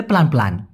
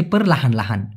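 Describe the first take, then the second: First: প্লান প্লান said quickly as two short syllables, the casual shortcut; clipped casual form. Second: পারলাহান লাহান with every syllable clear, per-la-han la-han; full correct form. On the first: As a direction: squeeze পারলাহান into a quick প্লান প্লান. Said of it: "ওরকম না বলে প্লান প্লান". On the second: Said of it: "সঠিক উচ্চারণটা হচ্ছে পারলাহান লাহান". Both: Shown as a demonstration.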